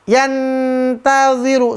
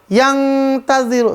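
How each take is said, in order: First: The nun is a clear, full n sound. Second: The nun becomes a velar ng sound. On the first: "Yantaziru salah" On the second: "Atau yang taziru salah"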